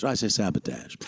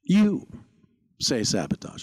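First: Sabotage ending in "-tazh"; Shatner-style "sabotage" as SAB-uh-tazh; odd pronunciation. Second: Sabotage ending in "-tahzh"; punched "You", then "sabotage" as SAB-uh-tahzh; standard pronunciation. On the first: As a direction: say "sabotage" with a flat A as in "cat" in the last syllable. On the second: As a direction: say "sabotage" with a broad AH in the last syllable. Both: Acted. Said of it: "could you pronounce that sabotage".

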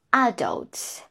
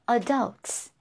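First: Adults with stress on first syllable, a-dults; British adults. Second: Adults with stress on second syllable, a-DULTS; American adults. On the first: Teacher contrasts British adults for students, first-syllable stress. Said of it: "British English". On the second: Teacher contrasts American adults for students, second-syllable stress. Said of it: "and American English". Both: Shown as a demonstration.

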